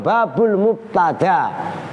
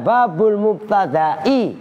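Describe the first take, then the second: First: The word ends in a plain long 'a'. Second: The word ends with a glottal stop and 'i'. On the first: The case ending is only implied. "maka kasrohnya adalah mukot daroh" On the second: The case ending is visibly marked. "pakai hamzah, kasrohnya dhohiroh"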